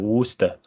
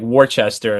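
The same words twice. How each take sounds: First: It is said shortened, with two syllables. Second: It is said as spelled, with three syllables. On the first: "and it's like Worcester" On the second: "Fucking place is spelled like Worcester"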